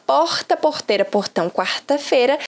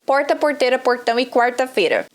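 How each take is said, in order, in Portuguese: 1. O R soa como o português de Minas Gerais. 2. O R soa como o português do sul do Brasil. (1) "do R do Mineiro" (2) "da galera do Sul"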